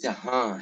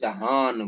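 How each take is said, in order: First: The final vowel is nasalized without an n. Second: The word ends with a full n sound. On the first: "अब ये जहां है" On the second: "अगर उसे नुक्ता रख डाले तो जहान बन जाता है"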